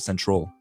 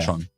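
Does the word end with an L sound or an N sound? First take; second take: L sound; N sound. First: The word ends with an L sound. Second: The word ends with an N sound. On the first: "They won't go central" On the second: "they'll say"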